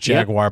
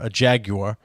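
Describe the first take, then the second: First: It is said with an American pronunciation. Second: It is said with a British pronunciation. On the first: "And we call it a" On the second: "I know you guys call the Jaguar, the car"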